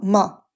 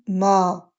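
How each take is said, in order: First: The vowel is short. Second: The vowel is prolonged. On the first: "sans alif, on va dire ma" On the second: "en ajoutant un alif, on dit ma"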